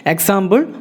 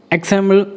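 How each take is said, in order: Both takes have the same delivery.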